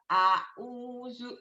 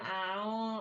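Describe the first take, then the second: First: The word is clearly articulated, every sound distinct. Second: The word is mumbled with unclear sounds. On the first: The speaker calls it right. "jelas gitu ya" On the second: The speaker calls it wrong. "jangan kayak orang kumur-kumur"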